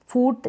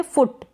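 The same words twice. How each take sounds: First: फूट with a long oo, as in "boot"; wrong long vowel. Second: फुट with a short u, as in "put"; correct short vowel. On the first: Teacher showing learners the wrong reading, long vowel. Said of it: "फूट नहीं पढ़ेंगे". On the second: Teacher giving learners the right reading, short vowel. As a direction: keep the vowel in फुट brief. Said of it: "हम पढ़ेंगे". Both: Shown as a demonstration.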